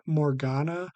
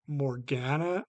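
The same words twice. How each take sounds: First: Morgana with the middle A as in "father"; broad-A pronunciation. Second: Morgana with the middle A as in "cat"; flat-A pronunciation. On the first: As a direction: say "Morgana" as mor-GAH-nuh. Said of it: "they pronounce it as Morgana". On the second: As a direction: say "Morgana" as mor-GAN-uh, GAN rhyming with "can". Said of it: "I don't know how to say it". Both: Shown as a demonstration.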